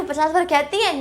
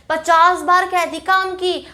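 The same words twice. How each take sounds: First: Said in the usual way. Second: Slow, lightly nagging mum voice; a hint of an exasperated mother; mock nagging mum. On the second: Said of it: "हम ना करें तो क्या कहती है".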